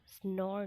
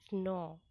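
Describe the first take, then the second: First: स्नोर with an added r sound at the end; wrong pronunciation. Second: स्नो with no r sound at the end; correct pronunciation. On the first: Teacher showing the wrong way to say snore, with a final r. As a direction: say स्नोर, ending on a clear r. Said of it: "स्नोर नहीं". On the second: Teacher giving Hindi learners the right snore, no r. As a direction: say स्नो, ending on the open vowel. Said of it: "इसको स्नो बोला जाएगा". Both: Shown as a demonstration.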